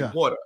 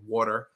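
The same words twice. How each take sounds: First: The final R sound is dropped. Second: The final R sound is pronounced. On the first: "I can't say ERs at the end" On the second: "instead of saying water"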